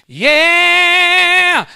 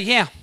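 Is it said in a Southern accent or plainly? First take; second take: Southern; plain. First: It is said in a Southern accent. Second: It is said plainly, without a Southern accent.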